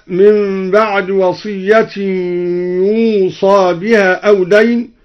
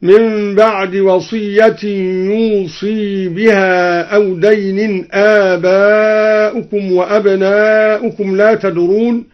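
First: Said in the usual way. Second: يوصي with a clear kasra on ص, slow; kasra on ṣād. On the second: Shown as a demonstration. Teacher demonstrating al-Duri's kasra on the ṣād, slow recitation. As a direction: make the ص of يوصي an i, drawn out. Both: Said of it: "بكسر الصاد".

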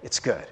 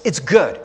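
First: It's good, barely said, trailing off. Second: Said in the usual way. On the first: Real, not acted. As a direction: lower and softer, fading away.

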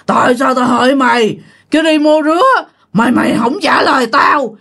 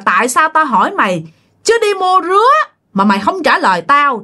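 First: Lightly hammed-up giant spirit, a touch more threatening; more menacing ghost voice. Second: A hint of a looming forest spirit growling the question; booming ghost voice. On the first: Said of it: "cái giọng nói của ổng càng thấy ghê nữa, nó ồm ồm". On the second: Giant ghost in the forest questions the frightened man, mild booming menace. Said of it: "ổng nói cái giọng nghe thấy ghê lắm, nghe nó ồm ồm".

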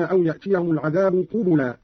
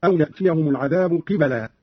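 First: Said in the usual way. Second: قبلا with i then a, "qibala"; kasra, then fatha. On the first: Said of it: "قرأ قالون بكسر القاف". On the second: Shown as a demonstration. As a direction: say قبلا as qi-ba-laa. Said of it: "بكسر القاف وفتح الباء هكذا".

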